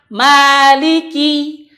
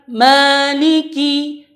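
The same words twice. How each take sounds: First: The first vowel is an open a. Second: The first vowel leans toward e. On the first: The speaker calls it right. "Yang benar tetap dengan a" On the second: The speaker calls it wrong. "bukan maliki... itu salah karena dia memiringkan"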